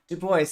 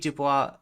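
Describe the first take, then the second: First: The name is pronounced in an English way. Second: The name is pronounced in a French way. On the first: The speaker calls it right. "I know it's Du Bois" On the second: The speaker calls it wrong. "more in a more French way than was is actually pronounced"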